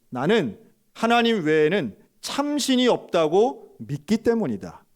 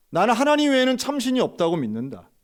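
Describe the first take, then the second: First: Slow, loud, leaning on 참신이; firm confession. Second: High, loud, stress on 하나님 then falling; proclaimed faith. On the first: Pastor answering the officer, slow and resolute. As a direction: say 참신이 slowly with weight and rising. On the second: Pastor proclaiming his faith to the police, loud and high. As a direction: ring out 하나님 high and strong. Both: Retold or imitated.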